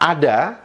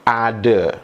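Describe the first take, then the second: First: The word ends with an open 'a' sound. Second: The word ends with an 'e' sound. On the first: "Kosakata ada" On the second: "diucapkan menjadi"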